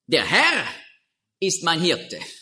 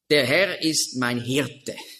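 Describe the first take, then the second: First: The stress is on the word Herr. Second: The stress is on the word Hirte.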